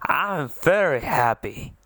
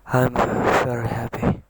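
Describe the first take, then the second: First: The speaker sounds genuinely happy. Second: The speaker does not sound happy.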